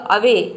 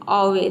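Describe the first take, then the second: First: The first vowel is a short 'uh' sound. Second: The first vowel is an open 'aw' sound. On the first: The speaker calls it right. "तो इसका pronunciation क्या होगा" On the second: The speaker calls it wrong. "इसको आपने pronounce किया पहले अ वे अवे, ... आपको लगेगा कि रॉन्ग है"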